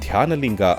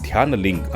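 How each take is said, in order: First: The word ends with a full final vowel. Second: The final vowel is dropped, ending on a consonant. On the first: "ನೀವು ಧ್ಯಾನಲಿಂಗ ಅಂದ್ರೆ" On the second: "ಕೊನೆ ಅಕ್ಷರನ ಕತ್ತರಿಸ್ತಾರೆ"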